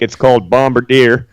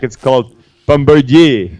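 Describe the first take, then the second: First: It is said with an Alberta pronunciation. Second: It is said with a Quebec pronunciation.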